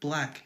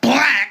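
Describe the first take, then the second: First: The word is said plainly and casually. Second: The word is said heavily and forcefully.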